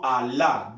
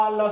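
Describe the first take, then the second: First: Alá said as a-LÁ, stress on the final á; Alá corrected, second syllable stressed; stress on last syllable. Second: Alá said loudly as Á-la, stress on the first syllable; Alá mis-stressed at the front, loud and high; wrong stress. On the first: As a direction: land the weight on the end of Alá. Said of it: "No Alá". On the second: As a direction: punch the first A of Alá, not the last. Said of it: "sino Alá". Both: Shown as a demonstration.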